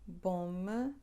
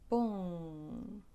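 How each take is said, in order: First: The vowel is plain, not nasalized. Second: The vowel is nasal, through the nose. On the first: The speaker calls it wrong. "instead of saying bom" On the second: The speaker calls it right. "we want to say bon"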